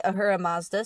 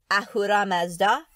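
First: AHURA MAZDA with American R, like Uhura; simplified pronunciation. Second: Said in the usual way. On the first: Shown as a demonstration. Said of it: "so that everybody can handle that".

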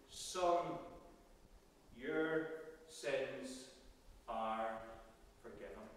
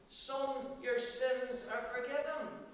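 First: Slow, falling, each word set apart by pauses, softer and lower to the end; hushed, measured blessing; slow solemn pronouncement. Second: "Son, your sins are forgiven" said higher, with the stress on "your"; raised, emphatic pronouncement; lifted restatement. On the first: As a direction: lay "Son, your sins are forgiven" down gently, word by word, fading on "forgiven". Jesus's words to the paralysed man. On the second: The same words repeated as Jesus. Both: Acted.

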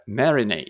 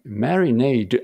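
First: "marinade" without the final D, ending on "nay"; silent D. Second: "marinade" with the final D sounded; D pronounced. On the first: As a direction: stress the start of "marinade" and drop its D. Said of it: "これD読まないことにします". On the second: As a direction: say "marinade" ending in an audible "do"-like D. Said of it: "あ、発音してるんですね". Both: Shown as a demonstration.

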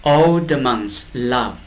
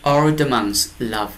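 No difference in how they are said.

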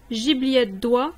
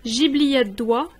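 Both takes have the same delivery.

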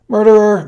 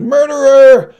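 First: Put-on high, loud baby's cry of accusation; piercing, drawn accusation; accusing shout. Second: Very high, very loud shriek; baby's all-out shrieked accusation; escalating accusing shout. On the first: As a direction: shout it out in horror at the killer. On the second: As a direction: scream the accusation at full pitch. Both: A narrator's reading. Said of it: "the baby shouted".

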